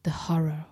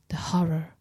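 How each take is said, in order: First: First whispered horror. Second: Second whispered horror, more distant; echoing whisper. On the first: Narrator hears the dusk repeat the dead man's words, whispered. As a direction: breathe the horror, barely voiced. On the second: Narrator hears the dusk repeat the dead man's words, fainter whisper. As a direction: let the horror fade like wind. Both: A narrator's reading. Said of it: "in a persistent whisper".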